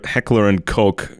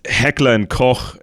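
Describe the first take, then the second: First: Koch is said the American way, like coke. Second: Koch is said the German way. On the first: The speaker calls it wrong. "Americans say" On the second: The speaker calls it right. "when it's Heckler and Koch"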